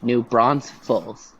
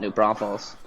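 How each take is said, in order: First: The name has an extra S in the middle. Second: The name has only one S, at the end. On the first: The speaker calls it wrong. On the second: The speaker calls it right.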